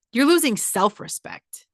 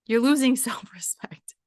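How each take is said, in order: First: Said in the usual way. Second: Whispered, breaking into a laugh. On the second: Real, not acted. Repeating the warning to her followers, laughing whisper. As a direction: whisper it with a chuckle in the middle.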